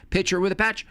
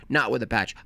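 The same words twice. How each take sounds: First: "Picture with a patch" said higher; higher, brighter take. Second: Said in the usual way. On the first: Shown as a demonstration. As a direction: lift the pitch up on "Picture with a patch".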